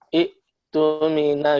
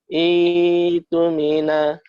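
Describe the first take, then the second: First: A glottal stop closes the first syllable, vowel short. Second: The first vowel is held long with no stop. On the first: This is the hard way Arabs struggled to say. "susah kalau dia membaca dengan ituni itumina" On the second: This is the easier reading scholars adopted. "membaca panjangkan dua harokat hamzah sukunnya"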